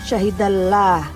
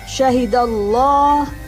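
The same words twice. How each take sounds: First: The L is thin, with a bright A-like vowel. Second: The L is thick, with a dark O-like vowel. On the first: The speaker calls it wrong. "bukan syahidallah" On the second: The speaker calls it right. "Jadi membacanya syahidallah"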